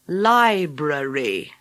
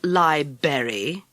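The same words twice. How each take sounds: First: The word is pronounced fully, with every sound. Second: The word is pronounced with sounds dropped or reduced. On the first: The speaker calls it right. "Say it properly" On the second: The speaker calls it wrong. "not library"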